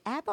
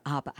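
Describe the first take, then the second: First: ABBA with a flat A as in "cat"; short-A pronunciation. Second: ABBA with an open "ah", AH-buh; broad-A pronunciation. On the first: Host asks co-hosts how to say the band's name, short-A pronunciation. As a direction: say "abba" starting like "apple". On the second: Host offers co-hosts the other way to say the name, broad-A pronunciation. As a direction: say "abba" starting like "father". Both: Shown as a demonstration. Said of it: "How do you say this".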